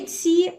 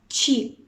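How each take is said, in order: First: The consonant is a plain, hard ts sound. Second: The consonant is a soft sound close to ch. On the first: The speaker calls it wrong. "дає нам не «ці»" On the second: The speaker calls it right. "а «чі». Так і між «ц» а «ч», але ближче до «ч»"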